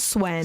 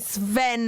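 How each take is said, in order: First: The name begins with an 'sw' sound. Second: The name begins with an 'sv' sound. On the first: The speaker calls it wrong. "not Swen" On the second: The speaker calls it right. "You say Sven"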